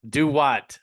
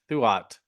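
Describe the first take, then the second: First: It begins with a D sound, like do what. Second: It begins with a TH sound, like throughout. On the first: The speaker calls it right. "the actual pronunciation" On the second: The speaker calls it wrong. "It actually is not pronounced anything like that"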